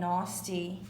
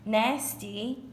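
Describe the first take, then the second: First: It is said with a non-American pronunciation. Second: It is said with an American pronunciation. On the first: "nasty is whatever" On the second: "I feel like is the American way of saying it"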